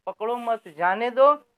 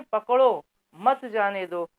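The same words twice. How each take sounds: First: पकड़ो मत grouped together, break, then जाने दो; pause after मत. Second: पकड़ो alone, clear break, then मत जाने दो together; pause after पकड़ो. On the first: Teacher showing the sentence that forbids catching, break after मत. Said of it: "इसमें रोका गया है". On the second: Teacher showing the sentence that orders catching, break after पकड़ो. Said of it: "इसमें पकड़ने के लिए बात कही गई है". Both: Shown as a demonstration.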